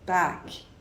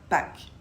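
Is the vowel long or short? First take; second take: long; short. First: The vowel is longer and a bit deeper. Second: The vowel is shorter and a bit higher. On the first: The speaker calls it right. "plus long et un peu plus grave" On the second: The speaker calls it wrong. "et non pas"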